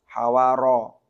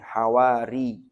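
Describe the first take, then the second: First: The final syllable ends with an 'a' vowel. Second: The final syllable ends with an 'i' vowel. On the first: "yang memfathah ra-nya" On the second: "bi fathil ha'i wa kasrir ra'i"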